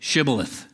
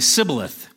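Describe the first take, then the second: First: The word begins with a 'sh' sound. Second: The word begins with an 's' sound. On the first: The speaker is a Gileadite. The speaker calls it right. "He would have him say" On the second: The speaker is an Ephraimite. The speaker calls it wrong. "The Ephraimite could not pronounce it correctly"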